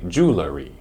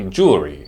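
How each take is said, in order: First: A vowel is added between L and R. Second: It is shortened to two syllables. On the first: "which is wrong because there is no vowel between the L and the R sound" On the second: "a colloquial way to say the word"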